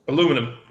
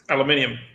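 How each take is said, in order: First: It has four syllables, stressed on the second. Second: It has five syllables, stressed on the third. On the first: "aluminum is American" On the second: "aluminium is English"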